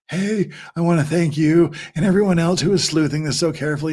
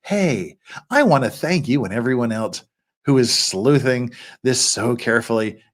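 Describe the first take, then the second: First: Lightly put-on ASMR voice; a hint of an imitated ASMR read; the speaker's ASMR voice. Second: Said in the usual way. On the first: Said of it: "do the Megan A S M R voice". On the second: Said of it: "or do we have to do".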